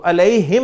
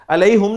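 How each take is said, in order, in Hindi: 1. h के बाद का स्वर i जैसा बोला जाता है। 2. h के बाद का स्वर u जैसा बोला जाता है। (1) "अलैहिम आप पढ़ते हैं ना" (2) "अलैहुम नहीं पढ़ते"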